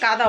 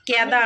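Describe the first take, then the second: First: The first vowel is an 'a' sound. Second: The first vowel is an 'e' sound. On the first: The speaker calls it right. "ওটা কাদা বলে" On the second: The speaker calls it wrong. "কেদা না"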